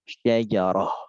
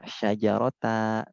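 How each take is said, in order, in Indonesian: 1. Kata ini berakhir dengan bunyi h lembut. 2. Kata ini berakhir dengan t dan vokal panjang. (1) "digantinya dengan hak" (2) "tidak dibaca syajarota, tidak baca, nggak bisa"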